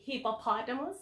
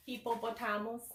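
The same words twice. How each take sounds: First: "hippopotamus" with stress on POT; standard pronunciation. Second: "hippopotamus" as hee-po-po-TAH-mus; Philippine pronunciation. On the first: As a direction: say "hippopotamus" the standard English way, short middle o. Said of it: "How do you read this word?". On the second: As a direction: stress TAM in "hippopotamus", Filipino style. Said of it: "in the Philippines, we say". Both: Shown as a demonstration.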